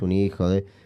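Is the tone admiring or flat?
flat. It is read flatly, with no expressive tone. It is an insult. "lo leo linealmente"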